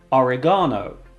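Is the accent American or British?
British. It is said with a British accent.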